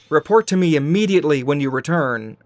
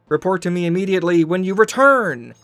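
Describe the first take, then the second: First: The emphasis falls on the word immediately. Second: The emphasis falls on the word return. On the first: The speaker calls it right. "not immediately?" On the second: The speaker calls it wrong. "Why put the inflection on the word return"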